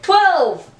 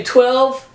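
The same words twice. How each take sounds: First: High, falling exclamation; shout-free burst of excitement, pitch jumping up; enthusiastic. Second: Said in the usual way. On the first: Shown as a demonstration. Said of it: "you just have to say it with enthusiasm". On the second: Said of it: "say it with enthusiasm".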